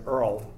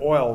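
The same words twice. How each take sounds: First: Put-on Brooklyn accent "Earl". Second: Said in the usual way. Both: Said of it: "instead of oil, they say Earl".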